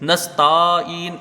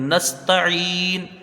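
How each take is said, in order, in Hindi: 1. 't' के बाद का स्वर लंबा खींचकर बोला जाता है। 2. 't' के बाद का स्वर जल्दी, छोटा बोला जाता है। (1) "किसी भी हाल में ये खिंचना नहीं चाहिए। नस्ताइन इस तरह से ये नहीं होना चाहिए" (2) "बल्कि इसको जल्दी पढ़ेंगे।"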